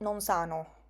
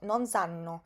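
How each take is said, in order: First: The n in the second word is short. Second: The n in the second word is long. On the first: The speaker calls it wrong. "que yo no digo i bimbi no- non sano" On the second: The speaker calls it right. "sino non sanno, porque es muy importante en italiano pronunciar la doble consonante"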